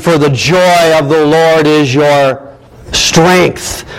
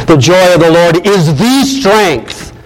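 First: Said in the usual way. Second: "the" said as a full, stressed "thee" before "strength". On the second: Shown as a demonstration. Preacher restating Nehemiah's verse, "the" stressed as "thee". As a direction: lean slowly on "the" as "thee".

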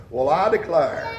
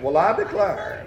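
First: Put-on old-timer "well I declare". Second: "Well, I declare" drawled softly in an Appalachian mountain accent; an old mountain folk exclamation, with the "declare" stretched out. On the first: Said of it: "the old time folks around whom I was raised". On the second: Shown as a demonstration. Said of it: "you have to do it with the Appalachian accent".

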